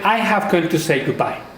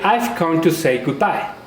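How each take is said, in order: First: I have is said as two full words. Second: I have is shortened to one syllable. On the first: The speaker calls it wrong. "They don't say" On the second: The speaker calls it right. "With contraction"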